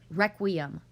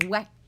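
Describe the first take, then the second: First: The word is said at a normal pace. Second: The word is said very fast and clipped.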